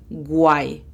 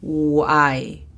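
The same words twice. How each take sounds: First: "why" said as "gwai" with a hard G; wrong G sound. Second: "Why" starts on a U glide, "uai", no G; correct English W. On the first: Teacher shows the common mistake: "why" as gwai. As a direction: put a G before "why". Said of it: "a menudo se pronuncia why". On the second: Teacher models the right "Why", U glide. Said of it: "Imagínate que está la U". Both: Shown as a demonstration.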